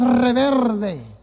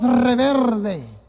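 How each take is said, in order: First: The cluster in the middle has an R sound. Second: The cluster in the middle has an R sound.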